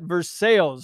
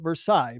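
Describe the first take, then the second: First: The name is said in the local Ohio way. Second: The name is said in the usual national way. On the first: This is how locals in Ohio say the name. "So we say it Versailles, Ohio" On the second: This is how people elsewhere say the name. "The rest of the country may say it Versailles"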